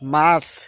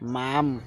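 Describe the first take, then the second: First: The word ends in a ch sound. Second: The word ends in an m sound. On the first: It is the proper word. The speaker calls it right. "আরে এটা মামরা, মাছ" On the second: It is baby talk. The speaker calls it wrong. "কো যে মাছ না, মাম"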